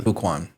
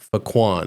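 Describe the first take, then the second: First: "Fuquan" with a long oo, FOO-kwahn, lower and softer; name said as Fuquan. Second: "Faquan" with the first vowel as a short uh, fuh-KWAHN; name read as Faquan. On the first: Co-host corrects the name, answering with "Fuquan" as FOO-kwahn. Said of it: "where are you putting the emphasis". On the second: Host sounds out the unfamiliar name "Faquan" as fuh-KWAHN. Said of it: "how you would pronounce this name". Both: Shown as a demonstration.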